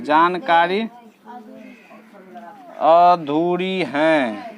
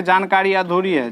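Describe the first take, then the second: First: Very slow, each word drawn out; teacher dictating the answer very slowly; slow dictation. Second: Said in the usual way. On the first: Shown as a demonstration. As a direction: dictate it slowly so they can write. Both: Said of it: "तो इसको लिखेंगे".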